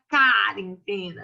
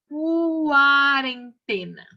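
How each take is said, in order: First: The first syllable is said without a u sound. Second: The first syllable is said with a u sound. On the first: The speaker calls it wrong. "A gente não fala quarentena" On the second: The speaker calls it right. "a gente fala quarentena"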